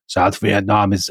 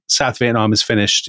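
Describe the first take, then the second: First: Slow, halting attempt at a German accent; bad Kissinger accent. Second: Said in the usual way. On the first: Host quoting Kissinger in a failed German accent. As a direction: try a German accent and give up after a few words. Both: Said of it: "I can't do his accent".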